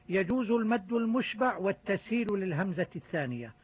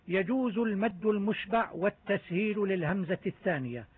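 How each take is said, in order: No difference in how they are said.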